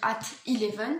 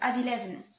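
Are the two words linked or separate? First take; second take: separate; linked. First: The two words are said separately. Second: The two words are linked together. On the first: The speaker calls it wrong. "On va pas dire at eleven parce que ça fait trop de, c'est trop compliqué" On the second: The speaker calls it right. "on va dire at eleven. Et encore, on euh, lit les deux mots ensemble"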